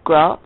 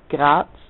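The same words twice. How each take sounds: First: The name is said with an English pronunciation. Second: The name is said with the local Austrian pronunciation. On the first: "that's how English people pronounce it" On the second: "it's really Graz"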